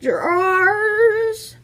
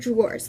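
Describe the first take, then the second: First: The word is dragged out with a drawl. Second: The word is said short and plain. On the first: "See how you really just like dragged it out?" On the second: "Like I just said, really short, really simple"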